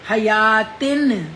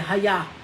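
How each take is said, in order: First: The word ends with a tin sound. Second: The word ends with a soft h sound. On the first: The reader continues without stopping. "तिन आएगा ना, दो नून की आवाज आएगी" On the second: The reader stops on this word. "हया बिल्कुल सही है"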